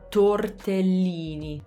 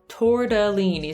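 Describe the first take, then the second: First: It has a clear T and Italian vowels. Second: It has a flapped T and English vowels. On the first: "In Italian, it's spelled with an E. So tortellini" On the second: "I used to always say tortellini. ... we use the flap T"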